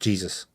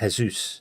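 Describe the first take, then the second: First: The first sound is a J sound. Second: The first sound is an H sound. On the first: "instead of Jesus" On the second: "is the J pronounced as a H? As in Jesus"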